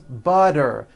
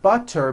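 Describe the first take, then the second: First: The middle consonant is a soft d. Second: The middle consonant is a crisp t.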